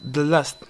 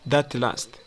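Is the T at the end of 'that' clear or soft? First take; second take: soft; clear. First: The T in 'that' is soft and linked. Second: The T in 'that' is clearly pronounced. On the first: "It sounds like the last" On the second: "instead of that last"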